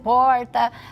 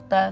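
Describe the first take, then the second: First: It has a countryside interior accent. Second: It has a Bahia accent.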